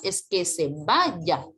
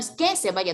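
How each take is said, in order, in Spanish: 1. El acento cae en el verbo. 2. El acento cae en la primera palabra. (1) "El acento recae en el verbo" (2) "No es que se vaya"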